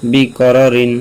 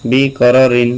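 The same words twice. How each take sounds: The two takes are said the same way.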